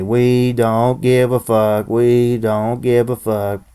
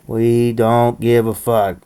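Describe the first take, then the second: First: Chanted, each word spaced for viewers to echo; slow chant. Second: Chanted, slow, deliberate refrain for the crowd to repeat; chanted, lay the words down slowly so others can join; slow chant lead. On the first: Vlogger chanting along with his viewers, slow. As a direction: chant it slowly, call and response. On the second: Vlogger leading viewers in a chant, slow and deliberate. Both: Shown as a demonstration. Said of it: "Say it with me".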